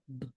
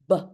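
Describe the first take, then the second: First: The b sound is short with no added vowel. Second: The b sound ends with an added uh vowel. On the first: The speaker calls it right. "It is very short and very succinct" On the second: The speaker calls it wrong. "We put an extra U H or uh at the end of the b sound"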